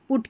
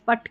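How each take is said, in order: First: The vowel sounds like the vowel in book. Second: The vowel sounds like the vowel in but. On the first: The speaker calls it right. "पुट को हम पुट क्यों पढ़ रहे" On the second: The speaker calls it wrong. "जैसे B यू T को हम बट पढ़ते हैं"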